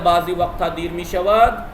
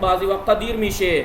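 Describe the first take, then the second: First: The final verb is said in full, as mishavad. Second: The final verb is shortened to mishe. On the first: This is the written form. "लिखा जाता है" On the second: This is the everyday spoken form. "बोलते में गुफ्तगू करते में क्या कहते हैं?"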